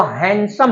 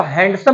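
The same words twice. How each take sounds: First: हैंडसम with the d dropped, like "hansom"; हैंडसम with the d silent; correct handsome. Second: हैंडसम with the d clearly sounded; हैंडसम spoken as spelled, "hand-some"; हैंडसम with a hard d; wrong way to say handsome. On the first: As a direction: say हैंडसम as "han-sum". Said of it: "वो हैंडसम होता है". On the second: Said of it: "तो हैंडसम नहीं होता". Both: Shown as a demonstration.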